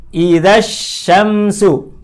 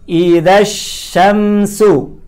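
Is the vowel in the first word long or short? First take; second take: short; short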